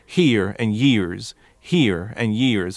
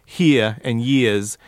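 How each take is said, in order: First: Here and years with hard Appalachian R's; R-heavy Appalachian here and years; forced R's. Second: Here and years without R's, "hee-uh, yee-uhz"; R-less New York here and years; dropped R's. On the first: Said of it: "would force those R's". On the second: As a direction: let the R's fall away in here and years. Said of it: "he's dropping those R's". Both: Shown as a demonstration.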